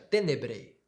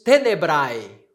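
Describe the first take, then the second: First: The word ends with a plain 'e' vowel. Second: The word ends with an 'ai' diphthong.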